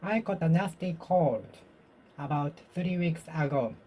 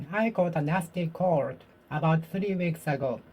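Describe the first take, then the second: No difference in how they are said.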